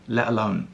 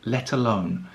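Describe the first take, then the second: First: The T in 'let' is a glottal stop. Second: The T in 'let' is pronounced clearly.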